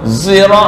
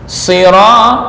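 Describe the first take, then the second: First: The word begins with a sound between s and z. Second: The word begins with a clear s sound. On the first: The speaker calls it wrong. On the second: The speaker calls it right.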